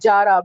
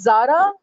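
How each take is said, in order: First: The name begins with a j sound. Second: The name begins with a z sound. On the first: "because they cannot speak Z" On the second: "Sometimes it says Zara"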